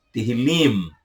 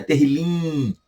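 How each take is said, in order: First: "Terrilim" with the lips firmly closed on the final m; the right "Terrilim", ending cleanly on m; correct pronunciation. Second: "Terrilim" with the final m dropped and the mouth left open; the incorrect "Terrilim", trailing off without the m; wrong pronunciation. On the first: Teacher correcting students on "Terrilim", final m closed. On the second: Teacher showing students the mistake on "Terrilim". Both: Shown as a demonstration. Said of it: "No final você fecha a boca".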